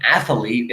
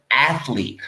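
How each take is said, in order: First: Athlete in three syllables, ath-uh-lete; mispronounced athlete. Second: Athlete said slowly as ath-lete, no middle vowel; two-syllable athlete. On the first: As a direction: add an extra uh in the middle of athlete. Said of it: "an extra vowel or an extra letter". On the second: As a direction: go straight from th to l in athlete. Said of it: "make it sound like it's supposed to". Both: Shown as a demonstration.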